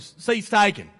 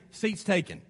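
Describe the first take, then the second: First: Southern drawl impression, louder; Forrest Gump. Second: Low, soft brush-off; unwelcoming. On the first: Preacher quoting a film for laughs, mock Southern accent. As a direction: put on a bad Southern movie accent. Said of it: "in Forrest Gump language". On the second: Acted. Face telling a visitor the seat is taken, unwelcoming. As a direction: turn the newcomer away quietly. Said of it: "or does your face say".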